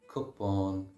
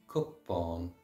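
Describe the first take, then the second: No difference in how they are said.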